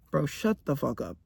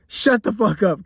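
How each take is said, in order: First: Low, softer annoyed mutter; muttered shut up. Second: Plain firm snap at full voice; shut up. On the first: Annoyed vlogger to an imagined commenter, low muttered. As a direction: grumble it under your breath. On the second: Annoyed vlogger snapping at imagined commenters, firm. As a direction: say it straight at the viewer. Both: Acted. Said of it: "'cause I know somebody's thinking that right now".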